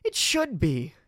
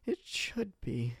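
First: Sharp, loud retort; louder, higher snap; snapped. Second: Slow, soft echo of the retort; a slower, deflated repeat; quiet, slow repeat. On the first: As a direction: bite the words off at him. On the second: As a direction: let it sink in softly. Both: Acted. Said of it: "she snapped".

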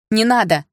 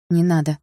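First: Sudden loud, higher cry to stop; urgent raised exclamation; exclaiming. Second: Restrained, disapproving warning; mildly disapproving; frowning objection. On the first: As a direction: burst out in alarm. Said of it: "воскликнула я". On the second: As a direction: say it with a frown, without raising the voice. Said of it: "нахмурилась я". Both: A narrator's reading.

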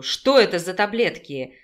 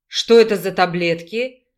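First: Firm, louder repeated question; громкий требовательный вопрос. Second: Growled demand, louder; снарядно рыча. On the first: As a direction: press hard for the answer. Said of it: "громко поинтересовался медведь". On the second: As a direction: growl it like an angry bear. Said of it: "зарычал медведь". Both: A narrator's reading.

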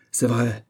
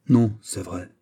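First: Mildly acted anger; a touch of indignant temper; furious exclamation. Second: Lightly sighed concession; understated, sighing admission; resigned sigh. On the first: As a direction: exclaim it with contained fury. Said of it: "s'écria Louis en fureur". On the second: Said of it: "soupira Louis". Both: A narrator's reading.

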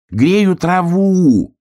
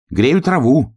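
First: High, loud, slow drawn-out shout. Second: Said in the usual way. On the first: A narrator's reading. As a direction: yell it so the bear cub hears. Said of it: "крикнул заяц". (громкий протяжный крик) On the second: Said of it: "сказал заяц".

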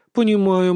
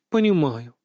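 First: Louder sympathetic Понимаю with emphasis. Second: Gentle sympathy. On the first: Grandmother consoling granddaughter, emphatic sympathy. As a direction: reach out with an emphatic, caring Понимаю. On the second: Grandmother consoling granddaughter, gentle falling repeat. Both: A narrator's reading. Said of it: "участливо покачала головой".

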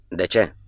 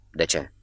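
First: Firmer repeated question, very distinct; slightly harsher. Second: Low, soft question that is also an order; questioning command. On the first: Wounded man asks Catov once more, slightly harsher. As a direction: put a mild edge on the question. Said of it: "cu o voce mai aspră". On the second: Wounded man questions Catov, a quiet commanding question. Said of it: "Întrebare și ordin totodată". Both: A narrator's reading.

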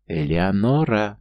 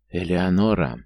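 First: Drawn-out, elated call of the name; rapturous cry. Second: Awed name let out on a sigh; breathed out. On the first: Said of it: "сияя от восторга, прокричал он". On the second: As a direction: exhale the name, falling at the end. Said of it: "выдохнул Марк". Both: A narrator's reading.

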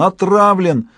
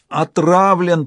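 First: Hoarse cry. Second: Hoarse gasp. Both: A narrator's reading. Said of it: "прохрипел он".

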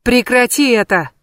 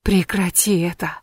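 First: Higher, louder command to stop; shouted. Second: Whispered plea. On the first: Loki shakes the witch, shouting at her. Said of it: "Локи встряхнул её ещё сильнее". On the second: Loki leans in to coax the witch, whispering. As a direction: whisper close to her ear. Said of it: "шепча, уговаривая". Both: Acted.

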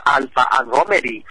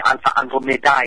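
First: Alpha Andromedi ending in "dee"; English-style Alpha Andromedi; English reading. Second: Alpha Andromedae ending in "die"; Latin-style Alpha Andromedae; Latin pronunciation. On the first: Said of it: "À, đọc theo tiếng Anh". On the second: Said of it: "Latin của Hy Lạp thì". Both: Shown as a demonstration.

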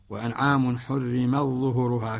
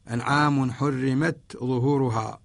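First: حرمت ظهورها with the تاء merged into the ظاء; حرمت ظهورها run together, no ت sounded; ظهورها joined straight onto حرم with the تاء assimilated; Warsh's merged reading. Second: حرمت ظهورها with the تاء clearly sounded; أنعام حرمت ظهورها, ت then ظ, slow; the تاء in حرمت kept clear before ظهورها; Qalun's clear reading. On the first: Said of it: "فيأخذ بالإدغام". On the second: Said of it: "يظهر قالون". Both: Shown as a demonstration.

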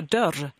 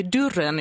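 First: Said in the usual way. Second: "dörren" pronounced "durren"; demonstrated Stockholm "durren". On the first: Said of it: "istället för dörr". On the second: Shown as a demonstration. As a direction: put a u sound in "dörren". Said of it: "det blir ett u-ljud där".

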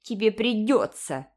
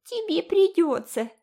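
First: Stubborn repeat, a little louder. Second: Very high, louder teasing parody; mocking mimicry. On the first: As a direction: dig in your heels. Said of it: "упрямо повторила Айви". (упрямо) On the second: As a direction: ape her words nastily. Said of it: "передразнила Джеральдина". (передразнивая) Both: A narrator's reading.

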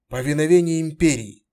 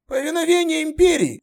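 First: Said in the usual way. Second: Much higher, strained veteran soldier voice; gruff centurion. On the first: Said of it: "Fes greets plainly". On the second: Acted. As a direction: bark it like a battle-worn centurion.

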